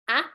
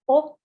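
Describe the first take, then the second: First: It is the short vowel of apple. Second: It is the rounded vowel of ball. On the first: "you would read A for Apple" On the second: "you will read as a O ball"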